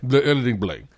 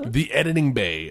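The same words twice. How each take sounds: First: "Blay" said with an added L; mispronounced on purpose. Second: Said in the usual way. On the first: Shown as a demonstration. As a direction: slip an L into Bay, making "Blay". Repeating own slip for fun.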